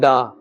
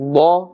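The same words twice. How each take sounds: First: The syllable sounds thin and light. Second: The syllable sounds thick with a full mouth. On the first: The speaker calls it wrong. "We must not say gha or da" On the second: The speaker calls it right. "This is pronouncing with a full mouth"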